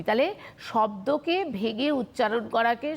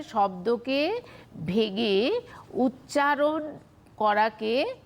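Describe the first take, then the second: First: Said in the usual way. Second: Slow, word by word with pauses; slow dictation. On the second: Shown as a demonstration. Teacher giving students a definition to write down, slow dictation. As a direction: dictate it in separated chunks, drawing out each word. Definition repeated slowly for note-taking.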